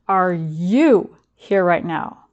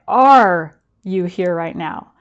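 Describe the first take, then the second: First: The emphasis falls on the word you. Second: The emphasis falls on the word now. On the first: It asks whether the listener is truly themselves, not influenced by others. "Or is there something bigger or someone bigger influencing you?" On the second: It asks whether the listener is present in this moment. "Are you here in the present?"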